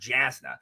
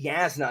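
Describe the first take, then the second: First: The name begins with a 'j' sound. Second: The name begins with a 'y' sound. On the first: "and not Jasna" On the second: "there's no way to know that it would be Yasna"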